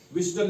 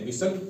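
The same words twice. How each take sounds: First: व्हिस्टल with an audible T after S; T pronounced. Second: व्हिसल with S straight into L; silent T. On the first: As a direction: sound the T in व्हिस्टल. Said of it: "नहीं पढ़ते हैं". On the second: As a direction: say व्हिसल without a T. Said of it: "इसको व्हिसल पढ़ते हैं". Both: Shown as a demonstration.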